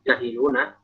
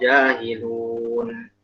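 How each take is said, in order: First: The word ends with a final a vowel. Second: The word ends on the n sound. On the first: The speaker calls it wrong. "Kok jahiluna?" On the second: The speaker calls it right. "Kalau wakaf jahilun"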